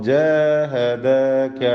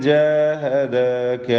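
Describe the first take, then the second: The two takes are said the same way.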